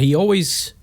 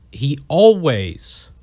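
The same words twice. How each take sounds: First: Said in the usual way. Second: "always" drawn out slowly with a strong swell; stress on always. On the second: Real, not acted. Host honoring Rush to his listeners, heavy stress on "always". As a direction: lean hard and long on "always", then let it fall. Repeats phrase for emphasis.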